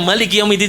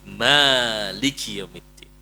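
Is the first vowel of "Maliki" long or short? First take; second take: short; long. First: The first vowel of the word is short. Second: The first vowel of the word is long. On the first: "yang Maliki Yaumiddin saja dengan qiraatnya Nafi" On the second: "membaca dengan isbatul alif, menambahkan alif"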